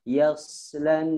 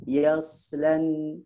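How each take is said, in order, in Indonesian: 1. Bunyi s memiliki desis tajam yang bersiul. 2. Bunyi s memiliki desis tajam yang bersiul.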